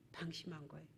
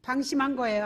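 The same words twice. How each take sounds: First: "방심한 거예요" said much softer, dropping away; quiet. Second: Said in the usual way. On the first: Shown as a demonstration. Pastor answering his own question, "방심한 거예요" softer. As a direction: softly repeat "방심한 거예요" as a verdict. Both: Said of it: "자, 어때요?".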